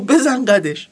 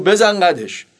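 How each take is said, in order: First: Mildly raised mock scared confirmation; lightly acted nervous retort; acted fearfulness. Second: Curt, cocky tough-guy confirmation; short, firm acted retort; thuggish Reza Shah. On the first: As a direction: play a rattled driver admitting it. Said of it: "با همون حالت ترسولتش گفت". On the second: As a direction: play a swaggering man clinching it. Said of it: "با هم حالتش گفت".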